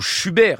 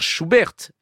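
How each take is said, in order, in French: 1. Schubert se prononce à la française. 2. Schubert se prononce à l'allemande. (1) "à la française" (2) "si l'on prononce à l'allemande"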